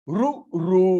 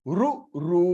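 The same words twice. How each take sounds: No difference in how they are said.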